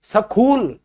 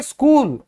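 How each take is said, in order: First: सखूल with an aspirated kh, the wrong way; mock mistake, सखूल; wrong pronunciation. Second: स्कूल said plainly with no aspiration; स्कूल, h silent; correct pronunciation. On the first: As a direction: say सखूल breathing out hard on the kh. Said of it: "सखूल क्यों बोलते हैं कई लोग". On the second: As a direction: say स्कूल with a clean unaspirated k. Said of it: "हम बोलेंगे स्कूल". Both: Shown as a demonstration.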